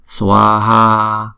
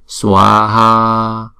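The two takes are said the same way.

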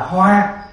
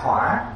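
First: The syllable has a level tone. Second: The syllable has a dipping tone. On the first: It means a flower. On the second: It means fire.

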